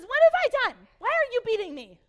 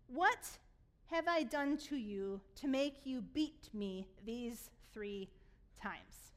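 First: Loud, high-pitched donkey outburst; high shouted complaint, far above normal speech; shouted protest. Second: Slow scripture reading. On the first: Acted. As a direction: yell it as an indignant, hammed-up donkey. Acting out the talking donkey's protest. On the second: A narrator's reading. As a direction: read the donkey's question out with deliberate pauses. Donkey's words first read out slowly.

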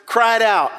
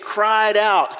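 First: Cried out said louder, with a push on cried; louder model. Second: Said in the usual way. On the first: Shown as a demonstration. Preacher models cried out for the congregation, louder. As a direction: give cried out more force. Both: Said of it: "Can we say those three words?".

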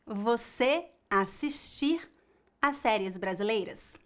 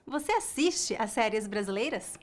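First: "assistir" in the infinitive with a final R; the error take: "assistir"; wrong form. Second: "assiste" with a faint final E; the answer take: "assiste"; correct form. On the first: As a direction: say "assistir" slowly, as the mistake. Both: Shown as a demonstration.

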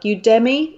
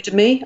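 First: Udemy said as you-DEM-ee; one pronunciation. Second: Udemy said as YOU-duh-mee; alternative pronunciation. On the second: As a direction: stress the first syllable of Udemy, weak middle. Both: Shown as a demonstration. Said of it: "I don't know how people pronounce it".

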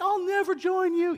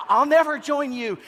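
First: Put-on much higher, young defiant voice; high whiny Luke. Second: High, loud defiant cry; high, louder Luke. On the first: Luke defying Darth Vader, high whiny voice. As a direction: squeak it like a teen hero. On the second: Retold or imitated. Luke defying Darth Vader, high loud cry. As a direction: shout it as a teen hero. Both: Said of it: "he always had that really high".

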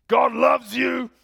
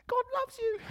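First: Put-on booming, slow, high-raised old preacher shout; Vernon. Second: Very high, strained mock preacher; young preacher's feeble imitation. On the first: Old biker declares God's love to the congregation, thunderous shout. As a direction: roar it like rolling thunder. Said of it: "it's like rolling thunder". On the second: Young guy preaching after the old biker, high mock voice. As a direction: squeak it out without any thunder. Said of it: "just doesn't pack the punch when you speak".

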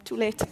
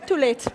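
First: Said in the usual way. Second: Amused at herself, giggling; half-laughing admission. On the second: Shown as a demonstration. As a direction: laugh through Too late. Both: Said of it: "Sorry, I'm going off on one".

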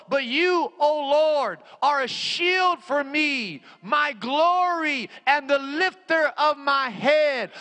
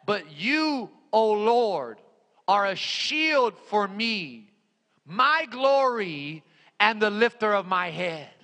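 First: High, slow, ringing proclamation; impassioned scripture cry. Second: Slow, deliberate recitation with pauses; measured scripture reading. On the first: Preacher hurls the Psalm at the devil, impassioned scripture cry. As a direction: cry the verse out as a battle call. Same verse repeated at full force. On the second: Preacher quotes the Psalm to the congregation, measured scripture reading. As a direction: give each phrase room. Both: Real, not acted.

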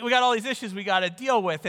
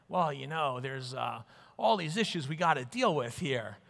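First: Said in the usual way. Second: Low, softer mock New York voice; New York accent. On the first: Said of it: "they don't actually say it with that". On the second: Imitating hospital petitioners sounding socially minded, New York accent. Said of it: "with that New York accent".

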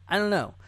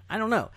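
The two takes are said the same way.

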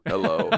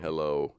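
First: Louder called-out hello. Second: Said in the usual way. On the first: Real, not acted. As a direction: call out a greeting to listeners. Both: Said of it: "we have some listeners down in Arizona".

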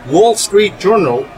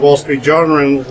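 First: Wall Street Journal said slowly and higher, each word set apart; slow emphatic repeat. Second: Said in the usual way. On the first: Real, not acted. Host repeats the paper's name to his guests, slow and emphatic.

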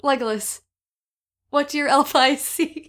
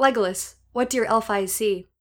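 First: Holding back laughter. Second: Dramatic reading. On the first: Real, not acted. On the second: Shown as a demonstration. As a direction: read it like a grave fantasy line. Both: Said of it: "I can get through this".

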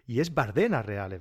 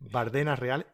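First: Bardenas with the stress on de, not on the first A; the right way: Bardenas, with the stress on de; correct stress. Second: Bardenas said with stress on -de-, no accent on the first A; correct stress. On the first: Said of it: "Yo siempre he dicho Bárdenas Reales". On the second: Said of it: "Sin acento en la A". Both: Shown as a demonstration. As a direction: stress the middle syllable of Bardenas.

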